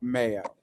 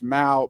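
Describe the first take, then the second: First: It is said as two syllables, like 'may-oh'. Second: It is said as one syllable, like 'mow'. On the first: The speaker calls it wrong. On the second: The speaker calls it right.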